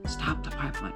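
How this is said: It is said in a whisper.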